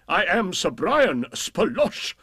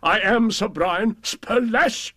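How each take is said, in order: First: Slow lordly boast rising on Brian; hammed-up knight, rising on Brian; boastful knight. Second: Slow, high proud boast, stress on am; I am, each word swelled with pride; hammed-up knight crowing his own name; boastful knight. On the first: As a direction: crow the name Brian upward, grandly.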